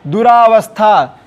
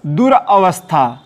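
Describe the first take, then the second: First: दुरावस्था with a long "raa"; misspelt form. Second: दुरावस्था with a short "ra"; short अ after दुर in दुरावस्था; corrected form. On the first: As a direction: run दुरावस्था together with long आ. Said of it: "यहाँ भी गलती कहाँ है?". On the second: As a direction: split दुरावस्था as dur-avastha. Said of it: "इसका सही शब्द क्या होगा?". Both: Shown as a demonstration.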